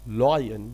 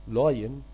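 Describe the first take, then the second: Both takes have the same delivery.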